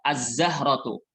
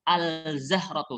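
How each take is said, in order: First: The L merges into the following consonant. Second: The L of the article is pronounced clearly. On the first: The speaker calls it right. "Alif lamnya tidak terdengar saat dibaca" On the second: The speaker calls it wrong. "Jangan bacanya al-zahratu. ... Salah"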